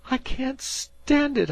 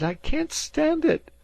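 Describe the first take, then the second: First: High, loud and slow, near tears; anguished cry. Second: Even higher, loud and slow; the second cry breaking higher; anguished cry. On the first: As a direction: cry out that it's too much. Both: A narrator's reading. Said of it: "cried Dan".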